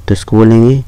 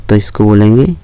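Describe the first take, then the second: Both takes have the same delivery.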